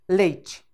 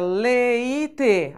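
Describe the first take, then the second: First: It is said naturally, in two syllables. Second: It is said slowly, split into three syllables. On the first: The speaker calls it right. "Não, leite, leite. Duas sílabas" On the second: The speaker calls it wrong. "então tem três"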